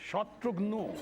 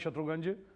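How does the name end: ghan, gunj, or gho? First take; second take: gho; gunj. First: The name ends in a rounded 'gho' sound. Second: The name ends in a 'gunj' sound. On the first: Bengali friends say it this way. "हमारे Bengali friends हैं, वो कहेंगे" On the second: Punjabi friends say it this way. "कई पंजाबी दोस्त आज तक कहते हैं"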